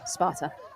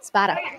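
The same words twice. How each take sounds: First: It is said in a Boston accent. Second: It is said in a standard accent.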